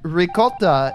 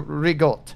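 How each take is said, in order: First: The word ends with a full final vowel. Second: The final vowel is dropped, ending in a consonant. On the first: "that would be the correct pronunciation" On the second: "ricotta is changed to rigot"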